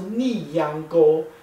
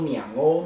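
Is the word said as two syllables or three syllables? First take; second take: three; two. First: The words are said as three separate syllables. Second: The words are merged into two syllables. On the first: "其实它是三个字" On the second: "两欧其实听起来是两个字"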